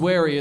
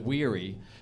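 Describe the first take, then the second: First: The name rhymes with the word merry. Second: The name rhymes with the word weary. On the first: The speaker calls it right. "It's spelt like Merry Christmas" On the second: The speaker calls it wrong. "people screw it up and they pronounce it Weary"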